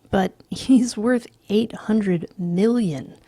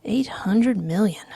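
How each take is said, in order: First: "worth" and "eight hundred million" leaned on, slow, with a falling close; emphatic repeat. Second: Said in the usual way. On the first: Acted. McDermott insists on the rich man's worth, slow and emphatic. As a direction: press every word of "But he's worth eight hundred million". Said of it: "McDermott repeats emphatically".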